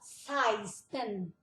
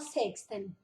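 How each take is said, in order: First: The middle is said with no k sound. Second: The middle is said with a clear k-s sound. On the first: The speaker calls it right. "a gente fala seisten" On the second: The speaker calls it wrong. "a gente não fala sexten"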